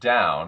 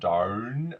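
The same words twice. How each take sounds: First: The vowel glides like a normal ow. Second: The vowel is bent toward an or sound. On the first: "the ow sound" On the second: "I can manipulate this like the or"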